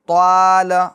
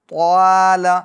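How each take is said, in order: The two takes are said the same way.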